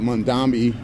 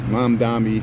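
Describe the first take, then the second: First: The name has an N sound in the middle. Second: The name has an M sound in the middle. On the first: The speaker calls it wrong. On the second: The speaker calls it right.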